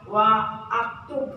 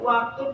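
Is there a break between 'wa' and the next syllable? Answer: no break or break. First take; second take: break; no break. First: A glottal break separates wa from the verb. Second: The words run together with no glottal break. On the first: The speaker calls it wrong. "kenapa enggak wa aktu?" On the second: The speaker calls it right. "kenapa enggak wa aktu? ... jadi seolah-olah hamzahnya dibuang, jangan dibaca"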